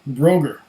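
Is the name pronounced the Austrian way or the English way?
English. The name is pronounced the English way. The speaker calls it wrong.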